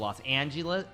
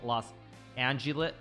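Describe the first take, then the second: First: It is said in a plain, standard pronunciation. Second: It is said in a drawled, trucker-style pronunciation.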